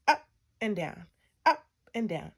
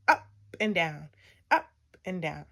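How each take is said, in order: Both takes have the same delivery.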